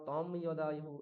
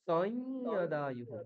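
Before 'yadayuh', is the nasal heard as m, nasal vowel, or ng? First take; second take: m; nasal vowel. First: The nasal before yadayuh is a clear m. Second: The nasal before yadayuh is a nasalized vowel. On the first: The speaker calls it wrong. "এগুলো বললে ভুল" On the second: The speaker calls it right. "এটাই বলতে হবে"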